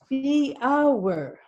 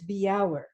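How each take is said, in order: First: The word starts with a plain B sound. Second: The word starts with a B then J sound. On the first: The speaker calls it wrong. "You need to pronounce the J" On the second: The speaker calls it right. "but in Danish it is Bjauer"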